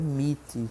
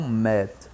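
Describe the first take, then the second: First: The vowel is a long 'ee' sound. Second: The vowel is a short 'e' sound. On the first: The speaker calls it right. "a pronúncia correta é meet" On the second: The speaker calls it wrong. "e não met"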